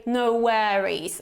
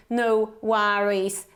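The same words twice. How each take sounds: First: American pronunciation of "worries"; American accent. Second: Slow British "no worries"; British accent. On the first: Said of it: "in the American accent". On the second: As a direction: say "worries" slowly with a British open vowel. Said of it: "that would be the British pronunciation". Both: Shown as a demonstration.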